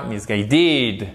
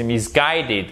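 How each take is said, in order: First: Misguided wrongly stressed on the last syllable, "misguiDED"; misplaced stress. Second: Misguided stressed on GUIDE, the ending light; correct stress. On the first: English teacher demonstrates the error to avoid, misplaced stress. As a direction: push the weight of misguided onto its ending. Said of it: "Et là, c'est pas misguided". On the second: English teacher corrects the error for learners, correct stress. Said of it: "Non, c'est misguided parce que c'est to guide". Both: Shown as a demonstration.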